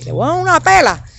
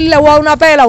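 First: Half-joking mother's threat; mock scolding threat. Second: High and loud scolding threat; loud mock threat. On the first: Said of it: "nosotros hablamos así". (amenaza de madre en tono agudo, sin subir la voz) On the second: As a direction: belt out the mother's threat. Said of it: "en vez de decir". (amenaza de madre, aguda y fuerte)

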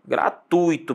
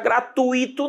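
First: "Gratuito" as gra-TUI-to, stressed on u; correct diphthong. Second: "gratuito" higher, as gra-tu-I-to; wrong hiatus. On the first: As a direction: say "Gratuito" with ui as one syllable. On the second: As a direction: split "gratuito" and stress the I. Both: Shown as a demonstration. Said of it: "não vá pronunciar gratuito".

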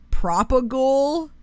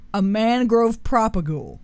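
First: Propagule said PRAH-puh-gool, rising unsure; unsure pronunciation. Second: Propagule said PRAH-puh-gool, settled and falling; confident pronunciation. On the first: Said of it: "not be able to say 'em". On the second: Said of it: "I think that's how you say it". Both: Shown as a demonstration.

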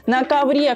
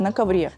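First: "ковре" said higher and louder, punched; stress on ковре. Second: Said in the usual way. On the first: Real, not acted. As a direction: exclaim "ковре" with disbelief. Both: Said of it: "На ковре, Карл".

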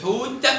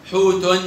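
First: حوت ending on a bare released t; sukun ending. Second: حوت said as "hootun"; damma tanween. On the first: Teacher shows pupils the sukun, حوت stopped on t. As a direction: say حوت with no final vowel. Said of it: "بالسكون". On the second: Teacher shows pupils the tanween, حوت ending in -un. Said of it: "بالضمة أو بالتنوين بالضمة". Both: Shown as a demonstration.

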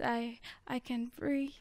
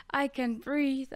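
First: Breathy whispered echo, much softer; whispered, fading denial. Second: Said in the usual way. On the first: Acted. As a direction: barely voice it, all air.

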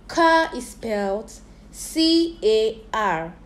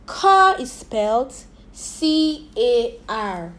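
Both takes have the same delivery.

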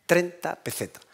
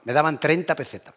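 First: TREINTA pitched up and set apart from "pesetas"; emphatic repetition. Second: Said in the usual way. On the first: Real, not acted. Speaker repeats his childhood wage to the audience, emphatic and spaced out. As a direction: dwell on "treinta", pause, then "pesetas".

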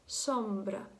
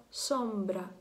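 No difference in how they are said.

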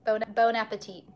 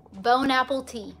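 First: "bone appetit" with appetit as one word, ah-peh-TEE; "bone appetit" run together, stress on the final tee; proper bon appetit. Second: "Bone apple tea" said as three plain English words, bone, apple, tea; "Bone apple tea" read word by word as in the meme; meme mispronunciation. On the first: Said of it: "Not bone apple teat?". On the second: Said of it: "Have you seen that meme?". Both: Shown as a demonstration.

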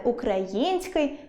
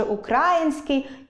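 First: Український as украЇНський; український slowly, stressed on the third syllable; correct stress. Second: Український as укрАїнський; український misstressed on the second syllable; wrong stress. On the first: Shown as a demonstration. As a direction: draw out Ї in український. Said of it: "точно варто сказати". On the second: Retold or imitated. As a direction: put the stress on КРА in український, raised. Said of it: "мене аж дрижаки беруть, коли хтось каже".

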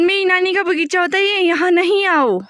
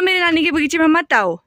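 First: Louder demo shout. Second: मेरी stressed, a firm called-out warning; mock-stern call to the monkeys; demo shout at monkeys. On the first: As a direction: call it out big so the child copies. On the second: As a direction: show the child how to shout it. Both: Shown as a demonstration. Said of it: "ऐसे बोलो".

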